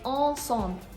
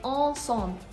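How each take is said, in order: First: The vowels are nasal with N and M silent. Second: The vowels are nasal with N and M silent.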